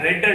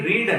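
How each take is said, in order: First: The vowel is short, like 'red'. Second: The vowel is long, like 'reed'. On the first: It is the past-tense verb, already read. "ఆర్ఈఏడి రెడ్ అంటున్నాను" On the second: It is the present-tense verb, to read. "ఆర్ఈఏడి రీడ్ అన్న"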